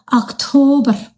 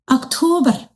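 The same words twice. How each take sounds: The two takes are said the same way.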